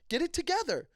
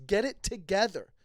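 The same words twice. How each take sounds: First: "together" pitched much higher in exasperation; exasperated. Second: Said in the usual way. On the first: Real, not acted. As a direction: rise up in frustration on "together". Scolding friend, repeated.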